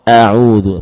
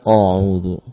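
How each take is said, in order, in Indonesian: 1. Hamzah pembuka itu ringan dan tipis. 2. Hamzah pembuka itu berat dan tebal.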